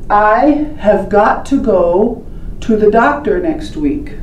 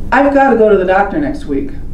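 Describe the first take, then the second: First: Each word is said fully and separately. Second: The words are fast and stuck together. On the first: "When we say it correctly" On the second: "That's what you're hearing"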